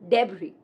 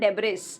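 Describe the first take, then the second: First: No s sound is heard at the end. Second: An s sound is pronounced at the end. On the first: The speaker calls it right. "S is silent" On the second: The speaker calls it wrong. "It's not debris"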